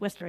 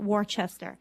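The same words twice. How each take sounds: First: The town name is said the local way. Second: The town name is said a non-local way. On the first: The speaker calls it right. "They know how to pronounce Worcester" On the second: The speaker calls it wrong. "It's not Worcester"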